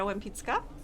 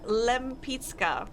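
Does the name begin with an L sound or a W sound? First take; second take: W sound; L sound. First: The name begins with a W sound. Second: The name begins with an L sound. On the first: "it has w sound in the beginning" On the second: "in English"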